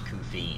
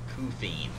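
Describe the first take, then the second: First: The name is said in a clean-sounding way. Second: The name is said in a crude-sounding way. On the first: This is the pronunciation suggested by someone else. The speaker calls it right. "So I'm gonna go with yours" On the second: The pronunciation could be mistaken for adult language. The speaker calls it wrong. "I'm gonna get like a tagged for my stream being adult language"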